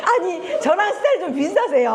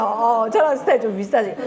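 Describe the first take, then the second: First: Said high through laughter; laughing. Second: Said in the usual way. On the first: Real, not acted. Lecturer teases an audience member, laughing. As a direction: laugh the line out, tickled. Repeats remark, first laughing.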